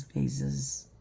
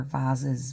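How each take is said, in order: First: "vases" with a long AY vowel, softer; "vases" pronounced VAY-siz. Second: "vases" with a broad AH vowel; "vases" pronounced VAHZ-iz; "vases" as VAH-ziz. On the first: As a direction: say "vases" to rhyme with "faces". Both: Shown as a demonstration. Trying rival pronunciations of vases.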